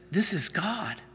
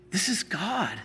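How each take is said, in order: Both takes have the same delivery.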